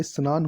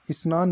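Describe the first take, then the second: First: स्नान said as "sa-naan"; careful "s'naan" for स्नान; correct pronunciation. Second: स्नान said as "isnaan"; everyday mistaken "is-naan" for स्नान; colloquial mispronunciation. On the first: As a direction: start स्नान on s, with no leading i. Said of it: "ये स्नान होता है". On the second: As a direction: put an "i" before स्नान. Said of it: "स्नान नहीं होता". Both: Shown as a demonstration.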